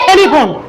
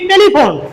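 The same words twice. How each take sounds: First: The first t is aspirated, with a puff of air. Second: The first t is plain, without a puff of air. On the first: The speaker calls it right. "কিন্তু শুদ্ধ উচ্চারণ কি হবে?" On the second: The speaker calls it wrong. "আমরা পড়ছি আগে কি?"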